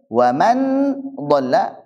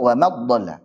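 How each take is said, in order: First: The n is pronounced clearly and fully. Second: The n merges into a doubled dh. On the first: "bukan wa man dhalla" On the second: "bukan juga wa mad dhalla"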